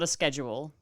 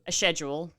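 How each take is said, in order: First: The word begins with an 'sk' sound. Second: The word begins with an 'sh' sound. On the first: The speaker calls it wrong. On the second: The speaker calls it right.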